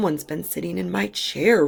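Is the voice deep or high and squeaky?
deep. It is roared in a deep Daddy Bear voice.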